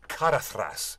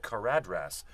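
First: The middle consonant is a soft TH sound. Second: The middle consonant is a plain D sound. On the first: The speaker calls it right. "when you put a D and an H together, it's like a TH sound" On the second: The speaker calls it wrong. "I always thought the mountain was called Caradhras"

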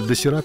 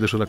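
First: The middle consonant is a plain 's' sound. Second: The middle consonant is an 'sh' sound. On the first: This is the original Korean name. The speaker calls it right. "по-корейски досираком называется" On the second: This is the name as it is used in Russia. The speaker calls it wrong. "к нам ее привезли с буквой «Ш»"

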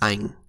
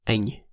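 First: A Northern accent, ending in an ang sound. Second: A Central accent, ending in an ang sound. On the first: "As a final in Northern Vietnamese, NH is pronounced as ang"

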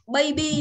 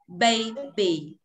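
First: The b sound is plain, lips lightly closed. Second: The b sound is made with firmly pressed lips. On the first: The speaker calls it wrong. "mình thường ngồi đọc baby" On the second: The speaker calls it right. "Bây giờ mím môi khác hẳn này"

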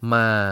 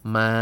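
First: The syllable is said with a changing pitch. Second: The syllable is said on a level pitch. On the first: It means horse. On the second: It means mother.

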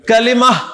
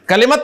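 First: The word ends softly with an h sound. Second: The word ends with a clear t sound. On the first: The speaker calls it right. "इसलिए मैं इस लफ्ज को क्या पढ़ रहा हूं?" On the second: The speaker calls it wrong. "कलिमत तो नहीं कह रहा ना।"

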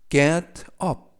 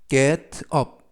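The two takes are said the same way.

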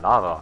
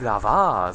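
First: The stress is on the first syllable. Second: The stress is on the second syllable. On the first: The speaker calls it right. "sondern Lava" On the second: The speaker calls it wrong. "ich sag nicht Lava"

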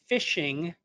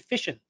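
First: The final g sound is kept. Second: The final g sound is dropped. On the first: "we don't say fishing" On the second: "in New England, we drop our G's"

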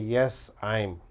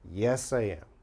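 First: I am is contracted into one syllable. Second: I am is said as two separate words. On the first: The speaker calls it wrong. "This is wrong" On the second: The speaker calls it right. "It is only yes I am"

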